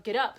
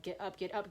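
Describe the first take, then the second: First: Loud, emphatic final command; raised-voice push to oneself; forceful self-urging. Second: Soft, quick repeated command; quiet, insistent inner order; restrained self-urging. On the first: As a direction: burst out with the order. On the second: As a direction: urge yourself under your breath. Retold self-urging, building. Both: Retold or imitated.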